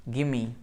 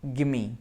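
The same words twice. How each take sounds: Both takes have the same delivery.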